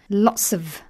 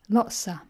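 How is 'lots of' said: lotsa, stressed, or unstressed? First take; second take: stressed; lotsa. First: The phrase is said fully, with stress. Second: The phrase is reduced to lotsa. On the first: "Lots of is a stress version" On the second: "the even more unstressed version is lotsa"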